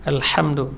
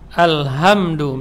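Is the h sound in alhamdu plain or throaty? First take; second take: throaty; plain. First: The h is tight, from the middle of the throat. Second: The h is a plain, light breath sound. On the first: The word means praise. The speaker calls it right. "harus dengan ha yang keluar dari tengah tenggorokan" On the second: The word means calamity or death. The speaker calls it wrong. "Dengan ha besar. Tidak boleh"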